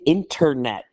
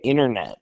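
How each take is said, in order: First: The word is said with careful, clear enunciation. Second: The word is said in a relaxed, reduced way. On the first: This is how the other group says it. "they say internet" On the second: This is how the speaker's own group says it. "like we do"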